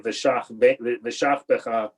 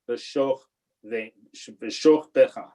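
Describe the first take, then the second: First: The first word's vowel is an 'ah' sound. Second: The first word's vowel is a short 'oh' sound. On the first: The speaker calls it wrong. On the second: The speaker calls it right. "it's a short o. It's an o"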